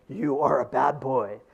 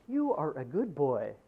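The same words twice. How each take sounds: First: Slow, louder scolding voice; the other voice scolds, harder and louder; bad boy voice. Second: Put-on slow, even voice saying good boy; a calm video voice praising the boy. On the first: The opposing video voice scolds the boy, slow and louder. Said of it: "this voice over here says". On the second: Video artist's voice to the viewer, slow and measured. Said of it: "this person over here is saying".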